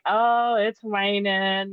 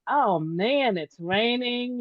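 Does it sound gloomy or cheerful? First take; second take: gloomy; cheerful. First: It sounds gloomy and negative. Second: It sounds cheerful and positive.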